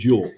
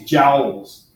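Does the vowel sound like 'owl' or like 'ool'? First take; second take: ool; owl. First: The vowel is a long oo sound. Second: The vowel rhymes with owl. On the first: It is the namesake's own pronunciation. The speaker calls it right. "We pronounce it his way" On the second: It is a joke pronunciation. The speaker calls it wrong. "sounded like owl"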